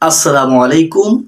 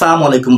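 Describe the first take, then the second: First: It begins with a full 'as-salamu'. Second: It begins with a shortened 'salam'. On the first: The speaker calls it right. "সঠিক হচ্ছে" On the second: The speaker calls it wrong. "অনেকে সালাম আলাইকুম বলেন, এটা সঠিক না।"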